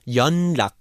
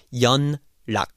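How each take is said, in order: First: 연락 said as yeollak, the n swallowed into a double l; correct pronunciation. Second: 연락 said with a clear n at the end of 연, yeon-lak; wrong pronunciation. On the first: Teacher showing students the natural way to say 연락. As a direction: turn the n of 연락 into l. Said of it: "So your 연락 will become 연락". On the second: Teacher showing the wrong, spelled-out way to say 연락. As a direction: keep the n of 연락 fully sounded before the l. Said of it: "But it's not 연락". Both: Shown as a demonstration.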